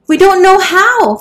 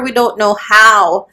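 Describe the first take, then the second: First: Very high, loud, desperate wail; panicked shout. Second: Slow, louder, drawn-out plea; pleading beg. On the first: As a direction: shriek it in helpless panic. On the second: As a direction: drag the plea out slowly, begging. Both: A narrator's reading. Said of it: "begged the frightened women".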